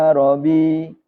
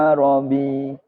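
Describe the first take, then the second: No difference in how they are said.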